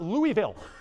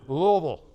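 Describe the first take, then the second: First: It is said crisply, every syllable fully pronounced. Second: It is said relaxed, with sounds run together. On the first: The speaker calls it wrong. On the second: The speaker calls it right.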